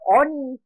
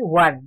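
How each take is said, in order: First: It is read letter by letter as 'oni'. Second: It is pronounced as the single syllable 'wun'. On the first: The speaker calls it wrong. "Kalau dibaca apa? Oni" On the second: The speaker calls it right. "tetapi bacanya bukan oni, tapi one"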